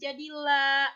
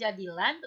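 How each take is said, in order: First: The word ends with a lengthened vowel, no n. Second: The word ends with a short vowel and n. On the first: This is how it is read when stopping. The speaker calls it right. "tetapi jadilah, dan dipanjangkan dua harokat" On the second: This is how it is read without stopping. The speaker calls it wrong. "bukan jadilan"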